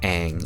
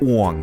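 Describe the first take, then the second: First: The name is said the original cartoon way. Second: The name is said the way the film says it. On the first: The speaker calls it right. "this isn't Aang" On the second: The speaker calls it wrong. "every single character's name is pronounced wrong"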